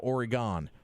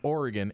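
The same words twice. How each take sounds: First: The word ends with a full 'gone' sound. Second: The word ends with a reduced 'gun' sound. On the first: The speaker calls it wrong. "instead of" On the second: The speaker calls it right. "just like with a gun"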